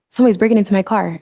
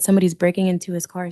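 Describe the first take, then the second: First: It is said in a panicked voice. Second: It is said in a calm voice.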